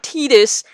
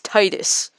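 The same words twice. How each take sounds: First: The first syllable does not sound like 'tide'. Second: The first syllable sounds like 'tide'. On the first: The speaker calls it wrong. "It's not Titus" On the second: The speaker calls it right. "That's how it's pronounced because of tidal wave"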